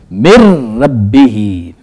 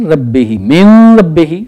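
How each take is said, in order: First: "مر ربی" with the nun dropped into a doubled r, marrabbi; correct tajweed reading. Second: "من ربی" slow, with a clear n before r, man rabbi; wrong reading. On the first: Teacher shows students the right reading, slowly and clearly. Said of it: "اب ہم اس کو یوں پڑھیں گے". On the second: Teacher demonstrates the common mistake, slowly. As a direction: stretch out "من ربی" keeping the n sounded. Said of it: "غلط ہے". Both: Shown as a demonstration.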